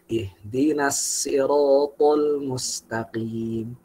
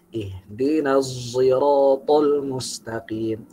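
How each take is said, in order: First: Sirat starts with a plain s sound. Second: Sirat starts with a z-like sound. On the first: This follows the Qunbul transmission. "riwayat yang pakai sin" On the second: This follows the Hamzah reading. "qiraat Hamzah"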